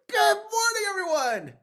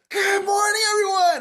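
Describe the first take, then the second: First: It is said with somewhat more energy. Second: It is said with full, maximal energy.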